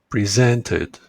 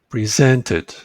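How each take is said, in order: The two takes are said the same way.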